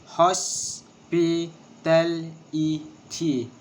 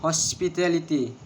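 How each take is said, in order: First: "Hospitality" very slowly in separate syllables. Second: Said in the usual way. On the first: Shown as a demonstration. Teacher showing the syllables of hospitality, syllable by syllable. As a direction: break the word up, pausing after each syllable. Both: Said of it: "six syllables".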